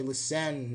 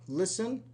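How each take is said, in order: First: "listen" mis-stressed on the second syllable, li-SEN; "listen" with a full, drawn-out final syllable; wrong stress. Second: "Listen" stressed on the first syllable, LIS-en; "Listen" with the weight up front; correct stress. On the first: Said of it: "We don't say listen". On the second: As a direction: say "Listen" as LIS-en with a weak ending. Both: Shown as a demonstration.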